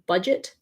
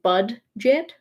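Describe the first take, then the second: First: No distinct D is sounded before the J. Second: A distinct D is sounded before the J. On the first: The speaker calls it right. "it's just budget" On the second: The speaker calls it wrong. "It's not like bud-jet"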